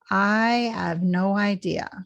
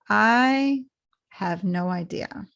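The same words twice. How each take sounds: First: The words run together and the H nearly disappears. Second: The words are separated and the H is clearer. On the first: "you can link it all together too" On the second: "Or you can separate them completely like this"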